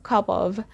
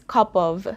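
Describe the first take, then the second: Both takes have the same delivery.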